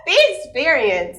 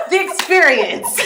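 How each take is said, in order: First: "The experience" again, high and loud with weight on "The"; playful grand title; emphasized title. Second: "The experience" announced high and loud, laughing; mock-grand announcement of the title; stressed title. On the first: Acted. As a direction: declare it like a show title. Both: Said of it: "she has italicized".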